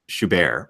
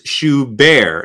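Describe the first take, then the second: First: The last syllable is said without extra emphasis. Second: The last syllable is strongly emphasized. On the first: "it just sounds like you're saying Schubert" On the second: "I'm emphasizing the word bear"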